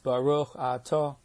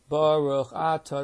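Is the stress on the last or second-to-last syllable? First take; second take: last; second-to-last. First: The stress falls on the last syllable. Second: The stress falls on the second-to-last syllable. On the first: The speaker calls it right. "The accent's on the last syllable, in most cases, not the second to last" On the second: The speaker calls it wrong. "that's wrong"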